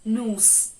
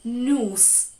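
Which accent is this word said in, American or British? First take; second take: American; American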